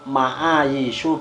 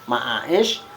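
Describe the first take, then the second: First: The middle consonant is a y sound. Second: The middle consonant is a glottal stop. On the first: The speaker calls it right. "yang betul itu ma'aishu bil ya" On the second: The speaker calls it wrong. "Ada ma'aishu bil hamzati, dibaca ma'aish"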